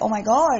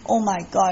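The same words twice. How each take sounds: First: It sounds happy and excited. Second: It sounds upset and dismayed.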